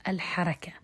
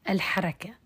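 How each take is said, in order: Both takes have the same delivery.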